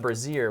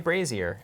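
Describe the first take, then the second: First: The first syllable sounds like 'bra'. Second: The first syllable rhymes with 'lazy'. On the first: The speaker calls it wrong. "Not a brazier, which is like a bra" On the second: The speaker calls it right. "as in lazier"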